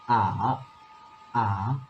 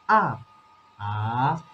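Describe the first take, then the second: Both takes have the same delivery.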